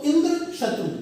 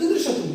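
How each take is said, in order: First: इंद्र lifted and set apart from शत्रु; two separately accented words, इंद्र and शत्रु; stressed इंद्र शत्रु. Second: इंद्र शत्रु run together as one compound; इंद्र शत्रु in one go, शत्रु falling; shifted stress. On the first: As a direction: hit इंद्र, slight break, then शत्रु higher. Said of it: "स्वराघात दिया". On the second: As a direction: join इंद्र to शत्रु without a break. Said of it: "थोड़ा सा स्वराघात बदल दिया". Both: Shown as a demonstration.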